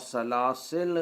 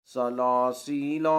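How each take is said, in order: First: سلاسل ending sharply on a closed "l"; final alif dropped. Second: سلاسیلا slow, ending on a long held "laa"; final alif sounded. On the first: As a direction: stop on the consonant, no vowel after سلاسل. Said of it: "یعنی الف کے حذف سے". (سلاسل آخری الف کے بغیر، لام ساکن) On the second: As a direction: draw out every long vowel in سلاسیلا. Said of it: "یعنی الف کے س". (سلاسیلا آخری الف کھینچ کر) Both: Shown as a demonstration.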